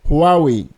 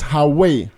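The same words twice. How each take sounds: First: It sounds like 'who are we'. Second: It does not sound like 'who are we'. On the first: The speaker calls it right. "the correct pronunciation is Huawei. A close English phrase to remember this is who are we?" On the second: The speaker calls it wrong. "If you have been pronouncing this name as"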